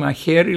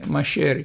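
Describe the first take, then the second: First: The middle consonant is a rough throaty 'h' sound. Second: The middle consonant is a soft 'sh'-like sound. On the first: This is the standard Greek way of saying it. "αντί να πούνε μαχαίρι" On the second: This is the local Cypriot way of saying it. "λένε μαχαίρι"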